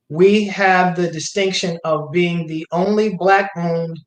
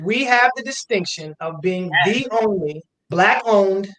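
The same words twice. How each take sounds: First: It is said in a plain, ordinary manner. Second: It is said in a forceful, authoritative manner.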